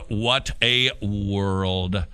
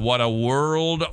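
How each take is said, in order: First: Very slow, lower, every word stretched; drawn-out lament. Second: Slowed-down sigh of a remark; exasperated lament. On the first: Host despairing over children's friendships, drawn-out lament. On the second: Host despairing over children's friendships, slow lament. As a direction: lament it slowly. Lamenting the story just told. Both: Real, not acted.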